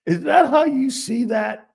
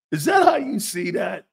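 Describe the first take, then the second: First: High, loud mock disbelief; incredulous. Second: Loud, shouting repeat; shouted disbelief. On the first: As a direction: act stunned at the take. Mock incredulous question, repeated. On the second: Pretend. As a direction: shout the question out.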